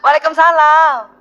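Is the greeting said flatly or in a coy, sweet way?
coy, sweet. It is said in a coy, pampered way.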